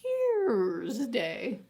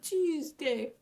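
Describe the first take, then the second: First: An R sound is heard in the first syllable. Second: No R sound is heard in the first syllable. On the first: It follows the god's original name. "And there's an R in it" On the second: It is the usual modern form. "really dropped that R, and it was more of a T"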